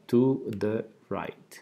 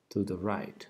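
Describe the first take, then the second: First: "To the right" said slowly and carefully for repeating; slow clear teacher model of "To the right"; slow model pronunciation. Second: Said in the usual way. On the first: Shown as a demonstration. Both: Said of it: "Pronunciación nuevamente".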